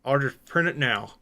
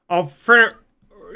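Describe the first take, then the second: First: Said in the usual way. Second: Words round a marker held in the teeth; marker in mouth. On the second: Real, not acted. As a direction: say it with a pen between the teeth. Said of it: "put a marker in my mouth".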